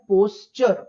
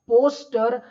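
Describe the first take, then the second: First: The middle consonant is a 'ch' sound. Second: The middle consonant is a plain 't' sound. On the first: The speaker calls it right. "इसका सही उच्चारण है पोस्चर" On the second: The speaker calls it wrong. "Please don't pronounce it as पोस्टर"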